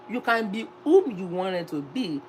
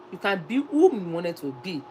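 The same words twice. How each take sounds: The two takes are said the same way.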